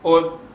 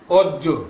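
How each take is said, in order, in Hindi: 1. अंतिम व्यंजन बिना गूंज के रुक जाता है। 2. अंतिम व्यंजन गूंज के साथ उछलता है। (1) "बगैर गूंज के" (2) "गूंज के साथ"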